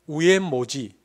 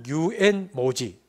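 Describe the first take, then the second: First: It is said u-en-mo-ji without 'y' sounds. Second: It is said yu-en-mo-ji with a plain 'mo'. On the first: "경상도 사람 그냥 시키면 우엔모지" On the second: "혹은 유엔모지 이게 양쪽 발음이 잘 안 됩니다"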